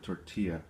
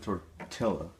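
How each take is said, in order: First: The word is said with a Spanish-style pronunciation. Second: The word is said with an English-style pronunciation. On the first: The speaker calls it right. "instead of tortilla" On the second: The speaker calls it wrong. "why would they pronounce it tortilla"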